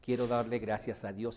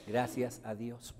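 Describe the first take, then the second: First: Said in the usual way. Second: "Gracias a Dios" slowed right down, each word set apart; stressed repeat. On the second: Shown as a demonstration. Speaker repeating the mother's words to the audience, slow and stressed. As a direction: lean on "Gracias a Dios" slowly so it sinks in. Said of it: "Fíjense".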